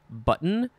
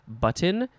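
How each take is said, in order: First: The T in the middle is softened, barely heard. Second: The T in the middle is pronounced clearly.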